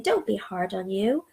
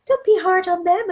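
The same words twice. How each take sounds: First: Said in the usual way. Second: Much higher and louder, pushing "Don't"; emphatic plea. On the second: Real, not acted. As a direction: lift "Don't be hard on them" high and loud. Repeated advice, second louder.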